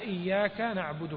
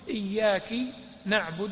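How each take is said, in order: First: The first word ends with an 'a' vowel. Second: The first word ends with an 'i' vowel. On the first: The address is in the masculine form. The speaker calls it right. "والآية إياك نعبد" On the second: The address is to a female. The speaker calls it wrong. "فيجعلها مخاطب للمؤنث"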